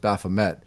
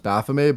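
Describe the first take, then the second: First: The name is pronounced the English way. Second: The name is pronounced the French way. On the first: This is the common form among English speakers. "if it's said in English, it's often pronounced Baphomet" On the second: This is the original form of the name. "originally it came out in like France, so it was pronounced Baphomet"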